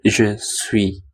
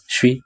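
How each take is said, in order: First: Both syllables are said in full. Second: It is shortened into a single syllable. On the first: "sebenarnya je suis" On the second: "bisa disingkat jadi suis gitu doang"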